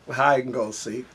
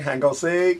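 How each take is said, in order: First: Every word is said fully and separately. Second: The first words are squeezed into one clipped word. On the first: The speaker uses the standard form for outsiders. "to all my other people of different ethnicities" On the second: The speaker uses neighborhood slang.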